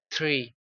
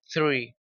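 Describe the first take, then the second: First: It starts with a plain t sound. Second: It starts with a soft th sound. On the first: The speaker calls it wrong. "como si fuese solamente una T" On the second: The speaker calls it right. "el sonido de T H es como la Z española"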